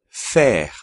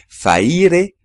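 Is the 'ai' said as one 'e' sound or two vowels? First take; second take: e sound; two vowels. First: The 'a' and 'i' merge into one 'e' sound. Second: The 'a' and 'i' are heard as separate vowels. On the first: The speaker calls it right. "la A más la I se combinan y forman el sonido E" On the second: The speaker calls it wrong. "aquí no hay que decir faire"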